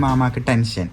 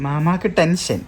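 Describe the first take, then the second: First: Said in the usual way. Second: മാമാക്ക് pitched higher and stressed; playful teasing echo; teasing repeat. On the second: Shown as a demonstration. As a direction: tease the uncle playfully. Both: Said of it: "ആശിൻ്റെ Ami വരായിട്ട്".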